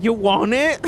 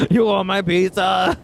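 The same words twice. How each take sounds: First: Put-on drunk offer. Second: Mock-drunk "You want my pizza?" with a heavier accent; drunk reenactment. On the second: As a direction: replay the drunk offer with a thicker accent. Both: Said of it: "I don't even think I said it right".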